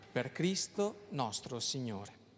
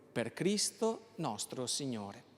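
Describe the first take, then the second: No difference in how they are said.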